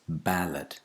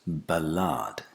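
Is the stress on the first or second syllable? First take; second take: first; second. First: The stress is on the first syllable. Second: The stress is on the second syllable. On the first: The speaker calls it right. "it's on the initial syllable" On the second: The speaker calls it wrong. "it's not the second syllable that the stress falls on"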